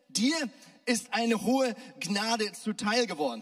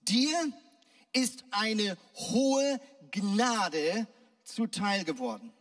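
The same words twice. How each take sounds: First: It is said in an offhand, everyday tone. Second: It is said in a solemn, formal tone.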